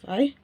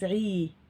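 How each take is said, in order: First: The vowel after the consonant is short. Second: The vowel after the consonant is long. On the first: "Instead of" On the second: "So the sound becomes longer"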